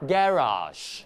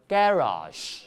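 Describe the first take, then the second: Both takes have the same delivery.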